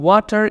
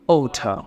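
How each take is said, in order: First: The final r is sounded. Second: The final r is dropped, British style.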